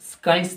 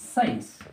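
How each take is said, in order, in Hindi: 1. इसमें s के बाद k की आवाज़ है। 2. इसमें k की आवाज़ नहीं है। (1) "स्काइंस तो नहीं पढ़ेंगे हम" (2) "सी की आवाज यानी क की आवाज नहीं आएगी"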